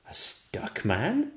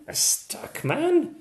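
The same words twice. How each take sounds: First: Rising puzzled question. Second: Much higher, amazed question; surprised question. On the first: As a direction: wonder aloud. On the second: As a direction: squeak it in surprise. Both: A narrator's reading.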